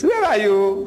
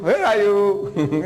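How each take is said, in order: First: Said in the usual way. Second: Slow, stretched-out teasing "Where are you?"; drawn out. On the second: Retold or imitated. Grandpa teases his grandson, slow stretched mock search. Playing hide and seek with grandson.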